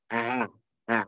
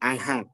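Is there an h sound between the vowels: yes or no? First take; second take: no; yes. First: The vowels join softly with no h sound. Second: An h sound is heard between the vowels. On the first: The speaker calls it right. "A a gitu ya" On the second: The speaker calls it wrong. "Bukan aha. Ada yang pakai h"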